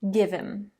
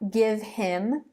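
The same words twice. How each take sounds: First: The H is dropped, linking the words together. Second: The H in him is clearly pronounced. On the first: The speaker calls it right. "the H is actually dropped and the two sounds on either side of it are linked together" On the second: The speaker calls it wrong. "It's not"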